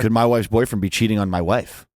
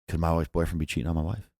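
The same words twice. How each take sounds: First: It is said at a louder volume. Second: It is said at a quieter volume.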